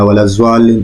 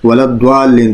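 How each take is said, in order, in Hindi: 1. इसकी शुरुआत z और w से होती है। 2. इसकी शुरुआत सादा d और w से होती है। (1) "वलज़्वालिन पढ़ते हैं तो वो ज़ा हो जाता है" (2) "बाज़ लोग पढ़ते हैं, तो द्वालिन में तो दाल और वाव हो गया, वो तो दाद नहीं हुआ"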